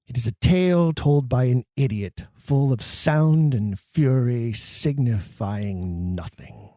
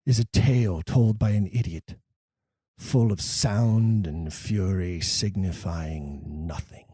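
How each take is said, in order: First: A weighty tragic reading; grave Shakespeare recitation. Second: Slow and low, fading to a hush on nothing; a hushed tragic reading; grave Shakespeare recitation. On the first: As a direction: let each word sink in. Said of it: "One of the most famous pieces". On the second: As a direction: let the words die away. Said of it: "Here's a great example". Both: Shown as a demonstration.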